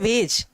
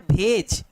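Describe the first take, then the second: First: The word begins with a 'v' sound. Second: The word begins with a breathy 'bh' sound. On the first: This is the standard form of the word. "जबकि real में होता क्या है, होता है वेज" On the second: This is how locals in the region say it. "तो वेज नहीं भेज बोलते हैं। बोलते क्या है"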